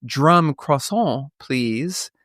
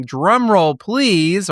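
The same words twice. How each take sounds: First: "drum croissant" said slowly and deliberately; punny correction. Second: Louder, ringing announcement of a drum roll. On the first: Host swapping in a French joke for listeners, slow and playful. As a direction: linger on "drum croissant" to land the pun. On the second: Host hyping the big reveal to listeners, announcer style. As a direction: call for the drum roll like a showman. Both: Shown as a demonstration. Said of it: "or perhaps I should say".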